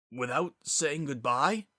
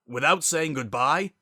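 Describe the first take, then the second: First: Slow, disbelieving first asking; a stunned, half-whispered disbelief; stunned question. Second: Louder repeat, pushing "Without"; the second time with rising anger. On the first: Zephyr's voice rose. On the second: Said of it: "Zephyr's voice rose". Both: Acted.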